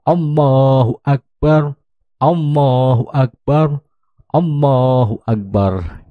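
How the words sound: Each phrase is separated by a pause. "membacanya secara terpenggal"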